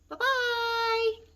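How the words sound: It is said in a high, squeaky voice.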